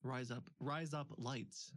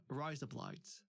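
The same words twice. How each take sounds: First: "Rise up, rise up lights" drawn out slowly in the accent; slow accent demo. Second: "Rise up lights" said lightly in the accent; a first light try at "Rise up lights"; accent demo. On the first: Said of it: "is how you would say razor blades". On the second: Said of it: "they were trying to teach me". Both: Shown as a demonstration.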